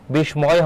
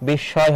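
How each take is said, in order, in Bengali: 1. s-এর পরে একটি ম ধ্বনি শোনা যায়। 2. সঙ্গে অনুনাসিকীকরণসহ একটি দ্বিগুণ sh ধ্বনি, কোনো ম নেই। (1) "বিস্ময় হবে না" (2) "বিস্ময় হবে"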